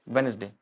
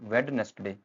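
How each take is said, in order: First: The middle d sound is silent. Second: The middle d sound is pronounced. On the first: The speaker calls it right. "ये डी silent होता है" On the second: The speaker calls it wrong. "आप इसको बोलेंगे spelling से"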